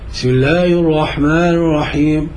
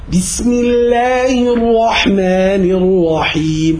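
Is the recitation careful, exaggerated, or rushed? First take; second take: rushed; exaggerated. First: Letters are swallowed and the words run together. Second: The letters are overdone with forced, strained articulation.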